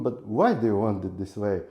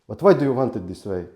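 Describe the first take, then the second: First: The question sounds curious and open. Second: The question sounds judgmental and accusing. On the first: The asker genuinely wants to understand. The speaker calls it right. "This is curiosity" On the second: The asker disapproves of the choice. The speaker calls it wrong. "this is not a curiosity, this is judgment"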